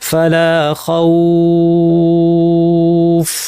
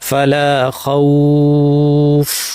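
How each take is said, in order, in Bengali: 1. 'aw' ধ্বনিটি তিন মাত্রা টানা হয়। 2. 'aw' ধ্বনিটি দুই মাত্রা টানা হয়।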